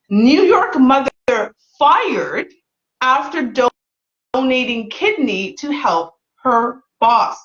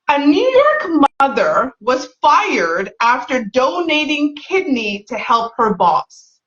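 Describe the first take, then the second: First: The sentence is read slowly and deliberately. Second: The sentence is read at a normal, quicker pace.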